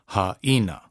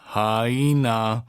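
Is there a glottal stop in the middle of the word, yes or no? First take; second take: yes; no. First: The voice stops briefly in the middle of the word. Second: The word flows through without any glottal stop. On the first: The speaker calls it right. "make sure that you get the glottal stop in there" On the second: The speaker calls it wrong. "Not haina"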